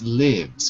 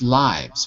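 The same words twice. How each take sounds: First: It is said like the verb 'live'. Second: It is not said like the verb 'live'. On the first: The word is a verb here. The speaker calls it right. "here it's lives because it's a verb. To live" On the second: This is how the learner said it. The speaker calls it wrong. "You said lives"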